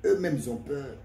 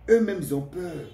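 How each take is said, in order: First: Said in the usual way. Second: Eux-mêmes repeated higher and louder; insistent repeat. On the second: Shown as a demonstration. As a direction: hammer home Eux-mêmes, ils ont peur. (répété plus haut et plus fort, en insistant) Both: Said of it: "Je le dis et je le répète".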